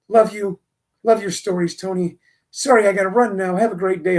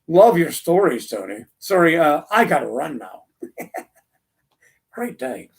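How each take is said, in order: First: It sounds warm and sincerely friendly. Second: It sounds sarcastic and dismissive.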